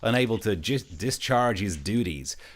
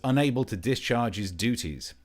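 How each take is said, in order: First: It is said in an American accent. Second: It is said in the speaker's usual accent.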